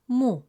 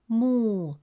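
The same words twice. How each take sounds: First: The vowel is short. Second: The vowel is long. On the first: "With a short dhamme vowel, it sounds" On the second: "With a long vowel waw, it becomes mu, resulting in a long u sound"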